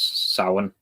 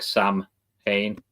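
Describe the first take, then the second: First: The middle is said as a w sound. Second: The middle is said as an m then h. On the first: The speaker calls it right. "the M H in the middle is just W basically" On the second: The speaker calls it wrong. "people split it as like Sam Hain"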